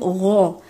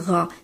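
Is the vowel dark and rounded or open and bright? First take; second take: dark; open. First: The vowel is dark and backed, sounding like o. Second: The vowel is open and bright, sounding like a. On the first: The speaker calls it right. "on va dire ro" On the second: The speaker calls it wrong. "d'ouvrir un peu trop la bouche en disant ra"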